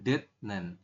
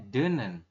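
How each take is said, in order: First: The final t is kept as a t sound. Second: The final t becomes an n sound. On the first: The speaker calls it wrong. "bukan detnen" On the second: The speaker calls it right. "Jadi nanti membacanya denen"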